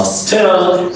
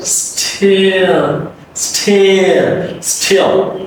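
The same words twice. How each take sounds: First: "still" slow and high, like "stel"; wrong open vowel. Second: "still" high, drawn out through the glide; correct still. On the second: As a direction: stretch "still" slowly into dark L. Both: Shown as a demonstration. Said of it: "it's not still".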